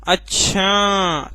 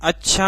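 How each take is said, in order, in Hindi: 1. आखिरी अक्षर लंबा खींचकर बोला गया है। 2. यह शब्द प्रश्न के रूप में बोला गया है। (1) "छा को खींच रहे हैं" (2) "प्रश्नवाचक"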